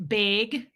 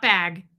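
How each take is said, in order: First: Put-on Minnesotan accent, bag as BAYG; long Minnesotan ay in bag. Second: Bag with a short a; standard bag pronunciation. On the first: Host imitating a Minnesotan friend, BAYG for bag. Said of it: "Debbie Zito is, like". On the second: Shown as a demonstration. Host contrasting with her friend, short a in bag. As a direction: open flat-a vowel in bag. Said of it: "not bag".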